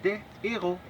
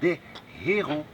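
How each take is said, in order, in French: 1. Le h est muet, sans liaison. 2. Le h est aspiré, on l'entend. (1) "on dit des héros" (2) "Pas besoin de dire des héros"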